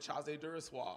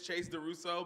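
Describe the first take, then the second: First: The name is said in a fancy, sultry voice. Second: The name is said in a plain voice.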